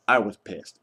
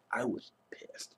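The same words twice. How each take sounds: First: Said in the usual way. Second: Unvoiced whisper, slow, for the family's sake; whispered aside. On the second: Real, not acted. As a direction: breathe it out like a secret so nobody in the house hears. Whispers after mentioning yelling indoors.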